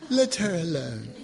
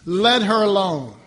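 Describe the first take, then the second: First: It is said in a British accent. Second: It is said in his own accent.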